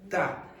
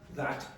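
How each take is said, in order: First: The final T becomes a glottal stop. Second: The final T is fully released. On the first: The speaker calls it right. "those final T's very often become what is called a glottal stop" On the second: The speaker calls it wrong. "So it's not that"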